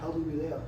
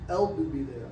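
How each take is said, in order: First: The word begins with an h sound. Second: The word begins directly with a vowel. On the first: This follows the written form. "That's how it's spelled" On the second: This is a regional dialect form. "But in Anguilla, they say"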